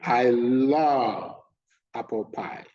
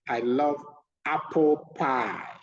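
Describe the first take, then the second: First: The word love is stressed. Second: The word apple is stressed. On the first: The speaker does not hate apple pie. "It puts all the emphasis on one word, love" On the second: Apple is the favorite, not another flavor. "this means that apple is the favorite"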